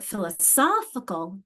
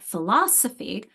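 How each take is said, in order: First: Slow philosophical with SOPH punched; strong third syllable. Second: Philosophy with LOS punched; strong second syllable. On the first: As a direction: hit SOPH in philosophical, taking it slowly. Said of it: "there's that strong". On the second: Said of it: "that strong philosophy". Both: Shown as a demonstration.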